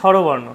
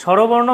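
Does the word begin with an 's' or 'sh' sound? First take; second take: sh; sh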